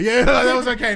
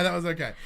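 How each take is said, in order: First: Laughing it out, higher and louder. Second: Said in the usual way. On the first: Shown as a demonstration. Host laughs as she repeats her verdict on Nia. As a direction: give a laughing, grudging approval.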